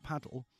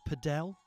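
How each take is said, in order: First: Said in the usual way. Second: Padel with the stress on -del; stress on second syllable. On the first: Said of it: "putting the wrong emphasis on". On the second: Shown as a demonstration. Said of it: "It's pronounced padel".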